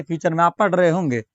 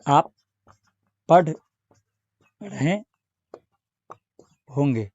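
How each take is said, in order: First: Said in the usual way. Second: "आप पढ़ रहे होंगे" split into single words with long pauses, last word dropping. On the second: Shown as a demonstration. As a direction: dictate "आप पढ़ रहे होंगे" one word at a time so students can follow.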